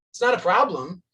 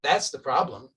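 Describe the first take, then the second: First: NOT pushed up and louder; stress on NOT. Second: THAT'S hit firmly, falling finish; stress on THAT'S. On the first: Teacher correcting students, punching not. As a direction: lean hard on the word not. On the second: Teacher turning the point, stressing that's. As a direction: land on the word that's. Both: Shown as a demonstration.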